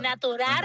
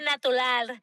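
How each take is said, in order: First: It is pronounced with an R sound. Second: It is pronounced with an L sound. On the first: "en vez de decir arr, de natural" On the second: "dije natural, con dos L"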